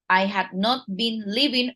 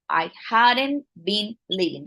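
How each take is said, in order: First: Had and not are said as two full words. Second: Had and not merge into one contracted word.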